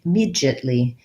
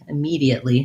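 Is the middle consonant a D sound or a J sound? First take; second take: J sound; D sound. First: The middle consonant sounds like a J. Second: The middle consonant sounds like a D. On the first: This is how British speakers say it. "speakers from the U K are going to say it immediately ... they change the D sound to a J sound" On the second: This is how American speakers say it. "Americans are going to say immediately ... So we keep that D sound as a D"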